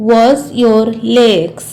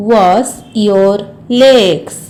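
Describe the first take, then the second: First: Said in the usual way. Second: Slow, word-by-word model sentence; slow repeat. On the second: Shown as a demonstration. Teacher repeats the washing instruction for learners, slowly. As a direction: space out each word for learners.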